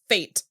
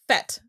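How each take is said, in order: First: The vowel is long, rhyming with 'late'. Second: The vowel is short, rhyming with 'bet'. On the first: The speaker calls it wrong. "everybody that I ever see pronounce it in a T V show says fate" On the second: The speaker calls it right. "I have always thought it was pronounced fete"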